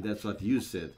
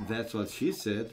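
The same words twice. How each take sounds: First: "you" punched, then falling; stress on YOU. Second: "she" given the weight, then falling; stress on SHE. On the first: Commentator turning the joke round, stress on "you". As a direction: hit "you" harder, let "said" fall. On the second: Commentator cracking an old joke, stress on "she". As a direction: lean on "she", let "said" fall. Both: Real, not acted.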